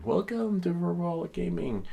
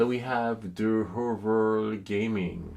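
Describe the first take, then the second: First: High, bright streamer shout-out; excited welcome. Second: Said in the usual way. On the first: Shown as a demonstration. Welcoming a viewer by name, high and eager. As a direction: greet the viewer by name with a lift.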